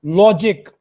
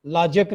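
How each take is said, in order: First: "लॉजिक" as LO-jik, clear i, louder; correct pronunciation of logic. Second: "लॉजिक" as LAA-juk, dull second vowel; wrong pronunciation of logic. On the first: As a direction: round the o and keep jik in "लॉजिक". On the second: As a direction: open a and schwa in "लॉजिक". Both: Shown as a demonstration. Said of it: "लॉजिक नहीं है".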